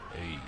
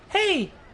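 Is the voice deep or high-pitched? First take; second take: deep; high-pitched. First: The voice is low and dark. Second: The voice is high and thin. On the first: "the dark" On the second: "the high pitched"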